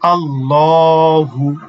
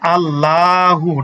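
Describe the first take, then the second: First: The L is said thick and heavy. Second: The L is said thin and light. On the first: The speaker calls it right. "আল্লাহ শব্দটাকে মোটা করে পড়ি বা পোর করে পড়ি।" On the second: The speaker calls it wrong. "আল্লাহু না।"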